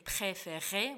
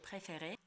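First: The r sounds are strong and harsh. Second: The r sounds are soft and light. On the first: The speaker calls it wrong. "с неправильным произношением" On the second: The speaker calls it right. "как здесь произносится мягко «р»"

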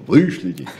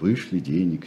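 First: It is said curtly and demandingly. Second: It is said politely and softly.

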